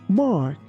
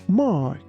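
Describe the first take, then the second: No difference in how they are said.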